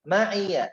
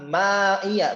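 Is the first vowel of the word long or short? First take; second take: short; long. First: The first vowel is kept short. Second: The first vowel is drawn out long. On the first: The speaker calls it right. "Langsung ma'i" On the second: The speaker calls it wrong. "Maknya tidak panjang. Bukan wa man ma'iya, bukan"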